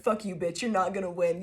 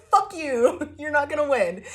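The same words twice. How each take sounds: First: Said in the usual way. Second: Higher, louder defiant yell through laughter; mock-triumphant laughing shout; over the top. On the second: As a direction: taunt it gleefully, laughing. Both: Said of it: "over the top about it".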